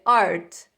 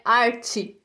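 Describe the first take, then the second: First: "art" cut off on the T, no vowel after; final T, correct. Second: "arte" ending in a Brazilian "chee" sound; wrong vowel ending. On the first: Teacher correcting "arte" for students, final T sound. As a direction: say "art" low and loud-edged, ending on a bare T. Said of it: "termina com o som de T". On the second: Teacher showing students the mistake to avoid, added final vowel. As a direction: add an i after the T, "arte" as ar-chi. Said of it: "Não é arte, é art". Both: Shown as a demonstration.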